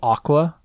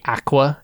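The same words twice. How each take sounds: First: It is said with an American accent. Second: It is said with a British accent. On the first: "instead of aqua" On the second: "you British people out there ... you guys say aqua"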